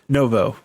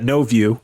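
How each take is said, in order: First: It is said as no-vo, between both. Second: It is said like the English words no view. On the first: It splits the difference. "Brody just pronounces it novo. It's right in the middle" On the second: It mocks the driver. "we always used to call it uh, no view, which is a slightly derogatory slang term"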